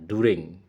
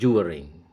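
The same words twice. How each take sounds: First: It is said in an American accent. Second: It is said in a British accent. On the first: "aksen Amerika" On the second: "kalau aksen British"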